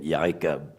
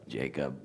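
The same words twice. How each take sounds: First: Jacob said with a Y sound, "Yacob"; Yod as a Y sound. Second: "Jacob." with the usual English J, as in "jay"; common J sound. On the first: Hebrew teacher showing the Yod, Jacob with a Y sound. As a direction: start "Jacob" with a Y, not a J. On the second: Teacher contrasting the English J, "Jacob." with a J. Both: Shown as a demonstration. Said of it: "It's not a J".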